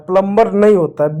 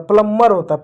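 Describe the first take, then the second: First: प्लम्बर said pələmbər with the b sounded; wrong plumber. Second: प्लम्बर said pələmːər, b silent; right plumber. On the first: Teacher shows pupils the wrong प्लम्बर. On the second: Teacher gives pupils the right प्लम्बर. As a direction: hold the m in प्लम्बर, no b. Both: Shown as a demonstration.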